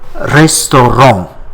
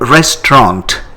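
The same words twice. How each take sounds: First: The final T sound is silent. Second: The final T sound is pronounced. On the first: "in French, it is called restaurant" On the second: "in English, we pronounce that T at the end"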